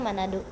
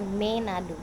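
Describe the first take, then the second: First: The first vowel sounds like 'a'. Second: The first vowel sounds like 'e'. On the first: This is the official name. "Kan namanya Manado" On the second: This is how people usually say it. "biasa disebutnya dengan Menado"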